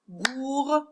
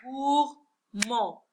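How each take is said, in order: First: Gourmande said in syllables with the D clearly heard, gour-man-de; higher gourmande with its D voiced for the class; final D sounded. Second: Gourmand said slowly in two beats, gour-mand, silent final D; syllables clapped out. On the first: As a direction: count gourmande out, landing on a sounded D. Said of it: "j'entends la lettre D". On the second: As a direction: count Gourmand out syllable by syllable, no D sound. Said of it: "On va compter ensemble en frappant les mains". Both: Shown as a demonstration.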